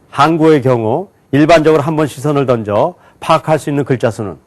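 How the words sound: Words are grouped into phrases and read very fast. "묶어서 굉장히 빨리 읽었어요"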